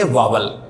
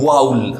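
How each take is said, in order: First: It is said as two syllables, 'vaa-wal'. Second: It is said with an 'ow' sound, 'vowl'. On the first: The speaker calls it wrong. "हम इसको वावल नहीं बोलेंगे।" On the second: The speaker calls it right. "इसको वावल नहीं बोलना। क्या बोलना है?"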